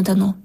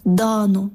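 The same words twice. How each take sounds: First: ДАНО stressed on the last syllable, данО; rejected данО, end-stressed; wrong stress. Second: ДАНО stressed on the first syllable, дАно; dictionary stress. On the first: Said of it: "ми звикли наголошувати слова неправильно". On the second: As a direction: stretch the А in ДАНО. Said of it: "у словниках завжди було". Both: Shown as a demonstration.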